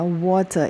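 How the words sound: It is said in a British accent. "water itu English, British English"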